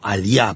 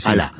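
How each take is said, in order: First: The double L sounds like 'ly'. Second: The double L sounds like a plain L. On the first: The speaker calls it wrong. "Como aliá" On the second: The speaker calls it right. "pero es"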